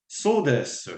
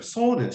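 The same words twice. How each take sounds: First: Said in the usual way. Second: "So desu" said much higher, lilting up; rising Japanese lilt. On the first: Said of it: "you'll say". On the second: Shown as a demonstration. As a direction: lift "So desu" high, the Japanese way. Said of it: "you have this way of saying it".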